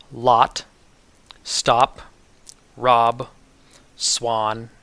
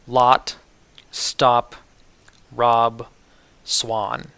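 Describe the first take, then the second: No difference in how they are said.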